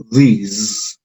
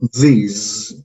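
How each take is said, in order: First: "these" drawn out slowly, long ee and buzzing z; slow teacher demo of "these" ending in a z buzz; slow model word. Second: Said in the usual way. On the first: Shown as a demonstration. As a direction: stretch "these" into "theeez". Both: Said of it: "Si ponemos los sonidos juntos".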